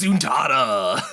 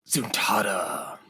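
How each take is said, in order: First: It is said in an exaggerated, hyped-up character voice. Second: It is said in a plain, normal voice. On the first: The speaker calls it right. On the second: The speaker calls it wrong.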